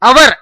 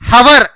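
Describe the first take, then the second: First: The word starts directly with a vowel sound. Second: The word starts with an audible h sound. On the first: The speaker calls it right. "H silent అండి ఇక్కడ, కాబట్టి అవర్ అని పలకండి" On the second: The speaker calls it wrong. "చాలా మంది హవర్ అని పలుకుతూ ఉంటారు"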